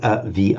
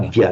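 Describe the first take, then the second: First: The v is a vowel, giving three syllables. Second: The v is a consonant, giving two syllables. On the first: The speaker calls it wrong. "not avia" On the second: The speaker calls it right. "distinctly two syllables"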